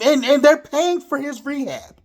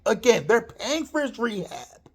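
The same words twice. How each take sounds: First: First insistence with they're raised; emphatic first take. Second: Said in the usual way. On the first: Real, not acted. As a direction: hit they're paying for his rehab hard.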